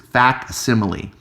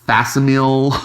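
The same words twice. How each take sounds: First: The word gets its usual standard pronunciation. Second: The word gets an odd, mangled pronunciation. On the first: The speaker calls it right. "It's facsimile" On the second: The speaker calls it wrong. "all weird pronunciations"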